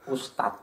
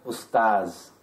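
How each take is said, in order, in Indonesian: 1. Kata ini berakhir dengan bunyi t. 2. Kata ini berakhir dengan bunyi z. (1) "Ustadz pakai T" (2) "Yang benar pakai za"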